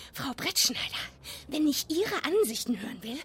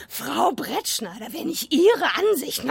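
First: Quick questioning rise on "Frau" and "Ihre"; "Frau Brettschneider" tossed off lightly, ending in a rise; a first casual run-through of the line; rehearsing the line. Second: Slow, weighty "Frau" falling, then "Ihre" hit hard; a cutting rehearsed rebuke, slowed down; with emphasis. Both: Shown as a demonstration. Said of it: "und dann noch die Betonung".

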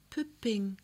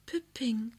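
First: Soft, hushed sleepy call; soft child's call. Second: Put-on higher child's whisper, no voice at all. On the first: Child asking for its doll in the dark, soft and hushed. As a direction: breathe the name out sleepily. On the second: Child whispering for its doll, pure whisper. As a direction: whisper it sleepily to the dark. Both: A narrator's reading. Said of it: "flüstert es leise".

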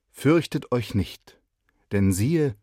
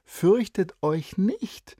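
First: Slow, louder proclamation; solemn angel. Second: High and slow, each word stretched; girl teasingly quotes the angel; lively girl quoting. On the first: Boy rehearsing the angel's words to the shepherds, solemn. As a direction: announce it grandly like an angel. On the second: Girl quoting the angel to encourage her friend, stretched. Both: Acted.

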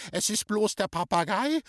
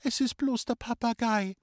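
First: High, incredulous echo rising into a question; outraged scream. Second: Put-on high, reassuring girl's call with falling end. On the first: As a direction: throw it back shrieking with outrage. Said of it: "hat geschrien". (empört und ungläubig nachgeschrien, hoch) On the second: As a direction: call it out as harmless news. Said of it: "hat gerufen". (hoch und beruhigend gerufen) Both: A narrator's reading.

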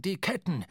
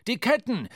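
First: Urgent call. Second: "Ketten" shouted high and loud; loud alarmed call. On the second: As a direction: yell the warning, rising in alarm. (lauter, alarmierter Ruf) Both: A narrator's reading. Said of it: "rief Starbuck der Mannschaft zu".

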